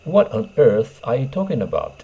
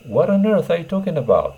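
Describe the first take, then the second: First: Said in the usual way. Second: EARTH flung out high and loud in disbelief; exasperated. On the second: Shown as a demonstration. Teacher acts out an exasperated native speaker, voice up high. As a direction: sound truly fed up, stressing earth. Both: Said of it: "on earthを挿入してください".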